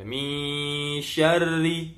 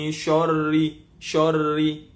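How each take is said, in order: First: Slow chanted "syarri" with a light, thin "sy"; sung, recite "syarri" slowly and keep the shin thin; sung, correct thin shin. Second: "syarri" with a heavy, thick "sho" sound, louder; wrongly thick shin. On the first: Teacher reciting the correct version before showing the mistake, slow thin chant. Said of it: "biasanya dia baca". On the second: Teacher demonstrating the common mistake to students, thick and loud. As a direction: thicken the shin into "shorri" on purpose. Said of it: "nak kasih tebal ki shinnya". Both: Shown as a demonstration.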